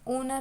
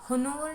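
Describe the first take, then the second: First: The word starts with a vowel, h silent. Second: The word starts with a pronounced h sound. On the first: The speaker calls it right. "ओनर होता है" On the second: The speaker calls it wrong. "होनोवर नहीं होता"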